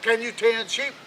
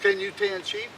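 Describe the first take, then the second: First: Put-on gruff old king. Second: Much higher, piping the question; squeaky old king. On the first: King questions the new hand. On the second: Acted. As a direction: squeak it out like a cranky old man. King questions little Jack.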